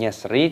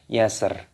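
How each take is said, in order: First: The word ends with an added i vowel. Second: The word ends on a bare consonant. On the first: The reciter reads on without stopping. The speaker calls it wrong. "Bukan yasri" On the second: The reciter stops at a pause here. The speaker calls it right. "tapi yasr"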